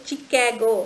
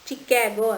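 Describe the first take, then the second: First: The word begins with a ch sound. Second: The word begins with a ch sound.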